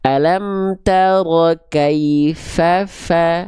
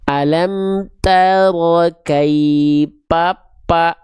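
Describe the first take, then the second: First: The consonant is an f sound, lip against teeth. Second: The consonant is a p sound, closing both lips. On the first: The speaker calls it right. "itu yang harusnya teman-teman lafalkan" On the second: The speaker calls it wrong. "ya nggak akan bisa"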